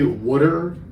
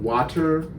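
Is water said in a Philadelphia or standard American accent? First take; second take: Philadelphia; standard American. First: It is said in a Philadelphia accent. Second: It is said in a standard American accent. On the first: This is how locals say it. "we don't pronounce like like I I say water" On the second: This is how most others say it. "instead of water"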